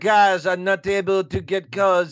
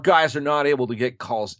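First: It is said in a put-on French accent. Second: It is said in the speaker's ordinary accent. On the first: The speaker calls it right. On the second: The speaker calls it wrong.

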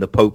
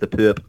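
First: The vowel is the standard long o sound. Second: The vowel is an er-like sound, locally accented.

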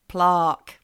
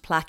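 First: The word is said the Australian way. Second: The word is said the general, non-Australian way. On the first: This is how Australians say it. "Australians, as you know, like to change things up" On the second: This is how it is said in most countries. "should be pronounced plaque in all the countries"

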